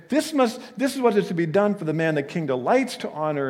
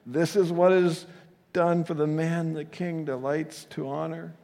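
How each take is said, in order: First: High, loud, proud herald cry; gloating proclamation. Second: High, strained herald forced to praise; horrified squeaky voice. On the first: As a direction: announce it as your own triumph. Haman imagines proclaiming his own praise. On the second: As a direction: squeak it out in horror. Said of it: "with, I think, a horrified, squeaky voice". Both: Acted.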